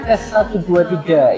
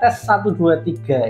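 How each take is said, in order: First: It is recorded indoors with people talking behind. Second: It is recorded indoors with a quiet background. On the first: "di dalam ruangan yang ada orang bercakap-cakap" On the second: "di dalam ruangan yang sepi"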